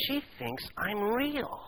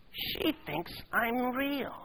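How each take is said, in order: First: Higher and slow, wondering; a boy amazed to be noticed; softer, slow, awed delight; astonished elation. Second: Higher still and very slow, softer; slow, wondering, softer repeat; hushed awe. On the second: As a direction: savour it in disbelief. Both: Acted. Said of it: "with astonished elation".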